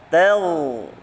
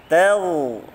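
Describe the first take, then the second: No difference in how they are said.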